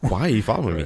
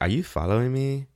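First: It is said in a serious, confrontational tone. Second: It is said in a cute, playful tone.

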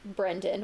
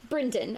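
First: The name is said in an American accent. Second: The name is said in a New Zealand accent.

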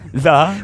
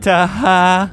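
First: The word is said as one short syllable. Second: The word is said as two separate syllables. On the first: It is said the normal way. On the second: It is read literally from the spelling.

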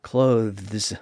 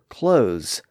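First: The word is said with a voiced TH sound. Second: The word is said without a TH sound.

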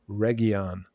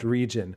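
First: It sounds different from the English word region. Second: It sounds like the English word region. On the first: It names the place in the story. The speaker calls it right. "it's Region, not region" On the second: It is the ordinary English word. The speaker calls it wrong. "it looks like the word region"

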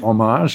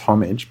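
First: It is said in an exotic, foreign-sounding way. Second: It is said in a plain English way. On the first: The speaker calls it wrong. "we like to make it into homage as if it's a bit more exotic" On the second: The speaker calls it right. "but I think it's homage"

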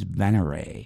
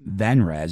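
First: The name ends with a 'ray' sound. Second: The name ends with a 'rez' sound. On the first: The speaker calls it right. "But it's Venray" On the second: The speaker calls it wrong. "that I kept pronouncing Venrez"

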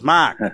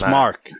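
First: The R sound in the name is dropped. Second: The R sound in the name is pronounced. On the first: This is how other people say the name. The speaker calls it wrong. "everybody goes" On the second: This is how the name's owner says it. The speaker calls it right. "I'm like, it's Mark"

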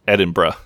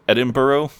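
First: The word ends with a short 'bruh' sound. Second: The word ends with a full 'burg' sound. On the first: The speaker calls it right. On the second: The speaker calls it wrong. "That's how I would say it. I feel like when I say it that way, I sound like a total hick"

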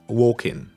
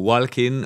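First: The L sound is silent in the word. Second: The L sound is pronounced in the word. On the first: The speaker calls it right. "You write the L, the L, but you don't pronounce it. Just walking" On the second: The speaker calls it wrong. "So it's not walking or walking or whatever"

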